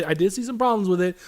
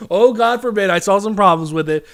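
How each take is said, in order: First: Said in the usual way. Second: Loud, exaggerated mock outrage; raised-voice sarcastic repeat; sarcastic mock horror. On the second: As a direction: say it as if confessing a scandal, sarcastically. Sarcastically repeats own admission louder.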